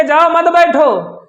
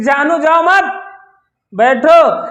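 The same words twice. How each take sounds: First: मत joined straight onto बैठो, no break between them; run-together misheard phrasing. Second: जाओ मत held together, then a break before बैठो; group जाओ with मत, pause, then a separate बैठो; pause after मत. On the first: Heroine hearing herself sent away, मत run into बैठो. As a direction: say जाओ मत बैठो in one run, मत leaning on बैठो. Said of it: "हमको ये भगा रहे हैं". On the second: Hero telling heroine to stay, pause between मत and बैठो. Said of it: "बैठो, जाना नहीं है". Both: Shown as a demonstration.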